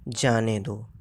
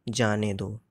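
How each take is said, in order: The two takes are said the same way.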